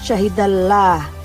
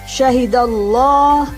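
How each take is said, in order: First: The 'l' is thin, with an A-like vowel. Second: The 'l' is thick, with an O-like vowel. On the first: The speaker calls it wrong. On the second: The speaker calls it right. "Keduanya terdengar bunyi O. Jadi membacanya"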